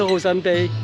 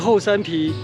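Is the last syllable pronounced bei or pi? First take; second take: bei; pi. First: The last syllable is pronounced bei. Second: The last syllable is pronounced pi. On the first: The speaker calls it wrong. "不是后山碑" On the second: The speaker calls it right. "我就跟他说是后山皮"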